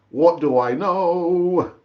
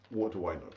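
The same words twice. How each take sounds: First: What do I know said slowly and louder; slow emphatic. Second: Muttered aside. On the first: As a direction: draw out the shrug, drawn-out and resigned. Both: Shown as a demonstration.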